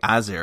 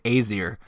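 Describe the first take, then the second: First: The first vowel is a short A sound. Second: The first vowel is a long A sound. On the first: The speaker calls it right. "It's really Aesir, I think. Think that A is a short A" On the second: The speaker calls it wrong. "I know I said Aesir a bunch of times last time"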